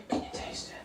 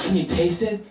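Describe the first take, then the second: First: Whispered, barely audible question; hushed whisper. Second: Higher, rising question; coy food question. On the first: Dinner hosts check on their secret healthy food, whispering. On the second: Dinner hosts ask about their secret healthy food, coyly. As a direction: ask it coyly, voice lifting at the end. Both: Retold or imitated.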